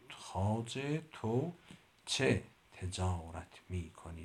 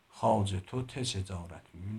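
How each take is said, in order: First: The phrase is said slowly. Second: The phrase is said quickly. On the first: The speaker calls it right. "ولی آرام میتونم بگم" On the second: The speaker calls it wrong. "من به سرعت اینو نمیتونم بگم"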